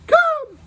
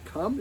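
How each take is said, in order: First: It is said in a high-pitched voice. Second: It is said in a normal-pitched voice.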